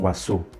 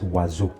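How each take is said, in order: First: The middle consonant is a hissing S sound. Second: The middle consonant is a buzzing Z sound. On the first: The speaker calls it wrong. "So I'm not saying oiseau" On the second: The speaker calls it right. "it's oiseau"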